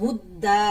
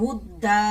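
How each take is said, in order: No difference in how they are said.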